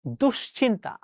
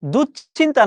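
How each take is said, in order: First: দুশ্চিন্তা softer with a falling tune; the right দুশ্চিন্তা, quiet and settled; correct pronunciation. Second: The mistaken দুশ্চিন্তা, questioning; wrong pronunciation. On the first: (শুদ্ধ উচ্চারণে দুশ্চিন্তা) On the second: (ভুল উচ্চারণে দুশ্চিন্তা) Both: Shown as a demonstration. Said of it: "না".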